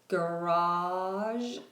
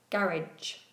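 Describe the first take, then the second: First: It is said with an American pronunciation. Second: It is said with a British pronunciation. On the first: "In American English, garage is garage" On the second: "But in British English, it's ga, garage"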